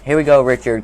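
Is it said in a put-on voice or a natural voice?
put-on voice. It is said in a put-on voice.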